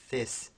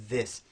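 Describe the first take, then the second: First: THIS mispronounced with the th of thin; voiceless th. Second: THIS with a buzzing voiced th. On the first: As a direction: take the voice out of the th in THIS. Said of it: "We don't say this". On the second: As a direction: keep the voice on in the th of THIS. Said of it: "We say this". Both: Shown as a demonstration.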